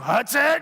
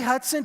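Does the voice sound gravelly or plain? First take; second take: gravelly; plain. First: The voice is gravelly and rough. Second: The voice is plain and light.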